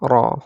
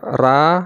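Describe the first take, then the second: First: The r is heavy, with a rounded full mouth. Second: The r is light, with an unrounded thin mouth. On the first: "membulatkan rongga mulut kita ini" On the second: "itu ringan ya. Itu namanya tipis"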